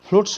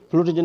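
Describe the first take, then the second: First: The word ends in an s sound. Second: The word ends in a z sound. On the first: The speaker calls it right. "फ्लूट्स होगा" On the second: The speaker calls it wrong. "फ्लूट जो नहीं बोलिएगा"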